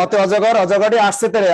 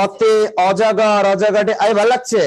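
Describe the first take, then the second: First: Said in the usual way. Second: Put-on slow, drawn-out Old Dhaka recitation; stretched Old Dhaka accent, primer style; Old Dhaka dialect. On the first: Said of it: "বাচ্চাদের পড়ানোর সময়". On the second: Shown as a demonstration. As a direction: mimic how Old Dhaka reads the primer. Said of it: "আর ওরাও কি বলে?".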